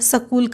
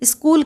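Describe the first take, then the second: First: The first two consonants are split apart. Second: The first two consonants are joined together. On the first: The speaker calls it wrong. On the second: The speaker calls it right.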